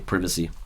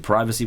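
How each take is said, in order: First: It is said with a British pronunciation. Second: It is said with an American pronunciation.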